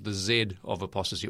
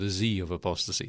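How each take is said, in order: First: Z is said 'zed', the non-American way. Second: Z is said 'zee', the American way.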